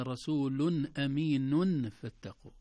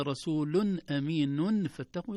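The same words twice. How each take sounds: First: رسول أمين فاتقوا said rasulun aminun with clear nuns; wrong reading. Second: رسول أمين فاتقوا with each nun sounded, slowly; clear-nun reading. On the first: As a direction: show the wrong clear nun, slowly. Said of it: "ما قلنا". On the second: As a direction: show the nuns pronounced. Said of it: "لو قلنا". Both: Shown as a demonstration.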